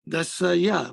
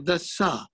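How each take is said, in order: First: The word ends with an extra 'ya' syllable. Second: The word ends without any 'ya' syllable. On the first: The speaker calls it wrong. "there is a fatah here on ya. Dasa ya, but we don't say like that" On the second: The speaker calls it right. "We say dasa"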